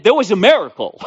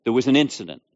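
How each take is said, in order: First: Higher and louder, proclaiming it; joyful shout of faith; triumphant declaration. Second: Said in the usual way. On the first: Retold or imitated. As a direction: answer the doctors with a bold proclamation. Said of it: "I said". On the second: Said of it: "That's what they wrote".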